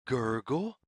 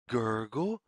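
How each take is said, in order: Both takes have the same delivery.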